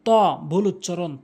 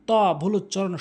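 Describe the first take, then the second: No difference in how they are said.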